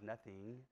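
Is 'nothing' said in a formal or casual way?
formal. It is said formally, every sound crisp.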